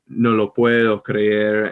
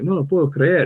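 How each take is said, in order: First: It is said in a less native-sounding way. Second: It is said in a more native-sounding way.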